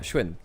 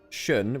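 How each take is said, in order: First: It is said with a 'w' glide, 'shwin'. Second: It is said with a plain 'sh' onset, 'shun'. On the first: The speaker calls it right. "More like a shwin" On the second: The speaker calls it wrong. "less like shun, which is the way I say it"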